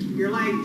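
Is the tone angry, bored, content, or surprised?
bored. It is said in a bored tone. The speaker does not care about the lateness.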